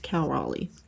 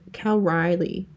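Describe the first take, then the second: First: The surname is said like Raleigh. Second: The surname is said like Riley. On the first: The speaker calls it right. "but it's Cal Raleigh" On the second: The speaker calls it wrong. "is how I like to say it"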